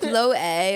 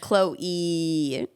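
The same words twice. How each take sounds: First: The final vowel is short and plain. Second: The final vowel is drawn out long.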